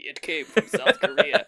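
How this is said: It is said in an ominous horror-trailer voice.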